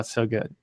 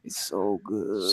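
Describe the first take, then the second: First: It is said in a plain, ordinary voice. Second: It is said in a distinctive put-on voice. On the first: "It's not just like oh it's so good" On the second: "it's with a different voice"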